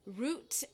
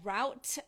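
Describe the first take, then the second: First: It is said in an English accent. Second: It is said in an American accent.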